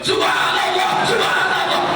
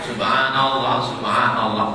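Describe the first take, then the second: First: It is shouted very loudly and forcefully. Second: It is said fairly loudly but restrained. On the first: It sounds like the person is raging. The speaker calls it wrong. "Kau zikir apa ngamuk?" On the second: Listeners can hear and learn the words. The speaker calls it right. "zikir kuat ... tapi tidak terlalu kuat"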